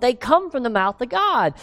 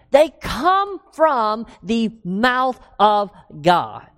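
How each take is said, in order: First: Said in the usual way. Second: Slowed right down, every word weighed; preacher slowing down to stress scripture's divine source; slow emphasis. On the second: Acted. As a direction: spell it out slowly for the church.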